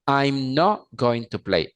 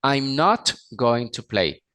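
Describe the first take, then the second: First: "not" said like Spanish "no", final T dropped; wrong not. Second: "not" said with a clear final T; correct not. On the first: Teacher showing the Spanish speaker's mistake, "not" said as "no". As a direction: say "I'm not going to play" with "not" as a bare "no", no T at the end. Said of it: "Pero no me pueden decir". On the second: Teacher repeating the sentence properly, a clear T on "not". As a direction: say "I'm not going to play" and finish "not" on a crisp T. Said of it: "Otra vez". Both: Shown as a demonstration.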